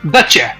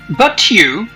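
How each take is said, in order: First: The t and y blend into a ch sound. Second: The two words are said separately and clearly.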